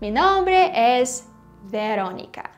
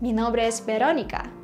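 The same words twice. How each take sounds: First: Veronica starts with an English V sound. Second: Veronica starts with a soft B-like sound. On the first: The speaker calls it wrong. "but it's not really correct" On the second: The speaker calls it right. "only now I can just comfortably say that"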